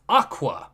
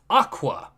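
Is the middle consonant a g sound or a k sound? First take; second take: k sound; k sound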